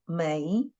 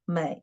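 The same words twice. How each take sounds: First: The pitch rises from mid to high. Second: The pitch dips low, then rises. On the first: "Second tone 美" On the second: "the third tone is 美"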